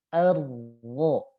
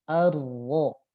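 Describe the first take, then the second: No difference in how they are said.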